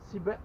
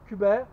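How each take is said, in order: First: The word begins with a 'see' sound. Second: The word begins with a 'koo' sound.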